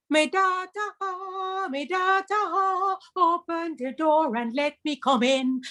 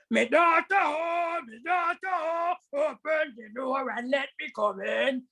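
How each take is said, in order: First: Sung, slow singsong tiger imitating mother; sweet sung call. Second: Slow, drawn-out tiger voice trying to sound like mother; rough tiger voice. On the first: Tiger at the door singing in the mother's sweet voice. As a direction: sing it sweetly, drawn out. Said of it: "The voice came out beautifully". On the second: Acted. Tiger at the cottage door calling the daughter, gruff and slow. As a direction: drag out me daughter like a gruff beast. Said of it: "And Mister Tiger said".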